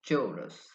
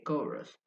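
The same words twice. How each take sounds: First: The word begins with a ch sound. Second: The word begins with a k sound. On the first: It follows ordinary English spelling rules. "it would be chorus if we absolutely use English" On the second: It keeps the Greek pronunciation. "the C H in chorus is actually pronounced k"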